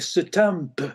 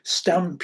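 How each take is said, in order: First: The word is said with an extra sound added. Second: The word is said plainly with no added sound. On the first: This is how speech can change after a stroke. "you start adding extra sounds in" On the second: This is typical speech. "instead of saying stamp"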